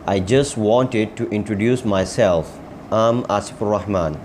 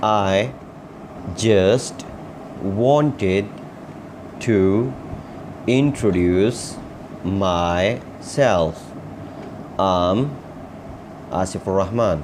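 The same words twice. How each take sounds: First: Joined up in connected phrases; whole-sentence model. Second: Very slow, a pause after every word; word-by-word model. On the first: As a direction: say the practice sentence through without word gaps. Same sentence repeated as a whole. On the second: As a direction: dictate it to learners one word at a time. Teacher models sentence word by word. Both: Shown as a demonstration.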